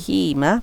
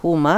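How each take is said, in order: First: The pronoun is said with an i vowel. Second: The pronoun is said with a u vowel. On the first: The speaker calls it right. "hima, not huma, because of the kasrah here" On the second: The speaker calls it wrong. "not huma"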